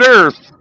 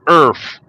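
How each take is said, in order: First: The word ends with a th sound. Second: The word ends with an f sound. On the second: "E A R F"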